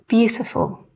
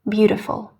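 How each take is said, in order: First: The middle T is a clean, crisp T. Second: The middle T sounds soft, like a D. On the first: "a really clean, crisp T sound" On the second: "an American, however, would read these words in quite a different way"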